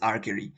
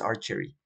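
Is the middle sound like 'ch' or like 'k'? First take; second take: k; ch. First: The middle sound is a 'k' sound. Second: The middle sound is a 'ch' sound. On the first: The speaker calls it right. "esta se pronuncia archery con K" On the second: The speaker calls it wrong. "no con CH, no es archery"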